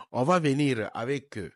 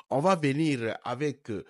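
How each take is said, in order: Both takes have the same delivery.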